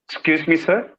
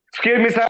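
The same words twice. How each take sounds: First: The voice sounds polite and gently modulated. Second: The voice sounds flat and blunt. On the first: The speaker is asking permission respectfully. The speaker calls it right. "This is how you use your vocalization" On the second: The speaker ignores the need to show respect. The speaker calls it wrong. "forgetting this tonality ... I will not change my tone. Simply"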